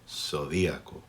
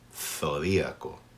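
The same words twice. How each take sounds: First: The z is pronounced like an s. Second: The z is pronounced like English th.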